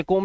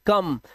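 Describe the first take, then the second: First: कोम with a long "o", like "comb"; wrong pronunciation. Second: कम with a short "uh" vowel; correct pronunciation. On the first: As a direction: show the mistaken कोम, long round vowel. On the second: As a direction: model कम to rhyme with "hum". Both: Shown as a demonstration. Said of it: "इसे कोम नहीं पढ़ते".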